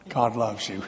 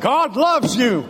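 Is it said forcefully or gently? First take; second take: gently; forcefully. First: It is said gently and warmly. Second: It is said forcefully, like pounding.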